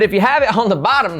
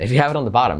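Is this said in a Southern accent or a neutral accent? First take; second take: Southern; neutral. First: It is spoken in a Southern American accent. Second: It is spoken in the speaker's normal accent.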